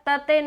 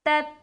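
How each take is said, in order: First: The final t is released with an echoing bounce. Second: The final t is held and stops abruptly. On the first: The speaker calls it wrong. "यहाँ पर तते नहीं होना चाहिए" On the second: The speaker calls it right. "वहां पर आवाज स्टॉप हो जाएगी"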